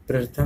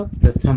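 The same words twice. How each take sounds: First: प्रथम with an extra र sound; प्रथम shown the wrong way; wrong take. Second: प्रथम clean, louder; प्रथम shown the right way; right take. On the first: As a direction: say प्रथम as प्रर्थम, the error. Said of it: "प्रथम नहीं होता". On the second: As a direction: say प्रथम with one र only. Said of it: "प्रथम होता है". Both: Shown as a demonstration.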